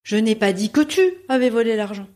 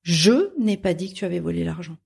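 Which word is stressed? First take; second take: tu; je. First: The stress is on the word tu. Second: The stress is on the word je.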